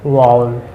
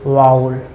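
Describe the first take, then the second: No difference in how they are said.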